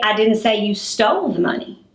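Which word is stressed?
stole. The word stole carries the strongest stress. Something else was done with the money. "Maybe I said you misplaced the money"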